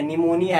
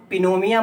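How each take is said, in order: First: निमोनिया with the silent P dropped, starting on N; correct pronunciation. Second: पिनोमिया with the P sounded at the start; wrong pronunciation. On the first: (निमोनिया सही उच्चारण, P silent) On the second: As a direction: say पिनोमिया pronouncing the silent P. (पिनोमिया में P बोलकर गलत उच्चारण) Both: Shown as a demonstration. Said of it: "पी silent है".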